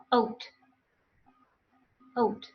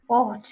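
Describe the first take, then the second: First: Ought with a gliding "oh-oo" vowel; ought modelled with a two-part O; correct pronunciation. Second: Ought with a short pure "aw"; ought with mother-tongue unglided O; wrong pronunciation. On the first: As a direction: say ought like "oat". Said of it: "What are the correct pronunciations then?". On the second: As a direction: say ought as "awt", no glide. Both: Shown as a demonstration.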